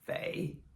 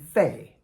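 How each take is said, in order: First: It is said with the third tone. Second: It is said with the fourth tone.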